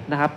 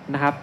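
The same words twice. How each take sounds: The two takes are said the same way.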